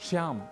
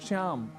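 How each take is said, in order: Both takes have the same delivery.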